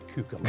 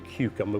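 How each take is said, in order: First: It is said in a Norfolk accent. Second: It is said in standard English.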